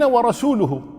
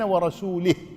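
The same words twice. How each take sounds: First: The ending is pronounced without an i vowel. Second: The ending is pronounced with an i vowel. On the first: The messenger also disowns the polytheists. The speaker calls it right. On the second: God disowns His messenger. The speaker calls it wrong.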